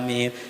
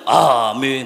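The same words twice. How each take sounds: First: The word is held for a normal length. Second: The word is stretched out very long. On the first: "Itu masih standar" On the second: "nah itu kesel tuh imam, lama banget"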